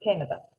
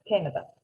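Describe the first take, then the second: First: The word is pronounced the English way. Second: The word is pronounced the English way.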